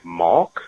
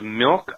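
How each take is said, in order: First: The vowel sounds like the a in 'father'. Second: The vowel sounds like the i in 'sit'. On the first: "how I say it, malk" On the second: "instead of milk"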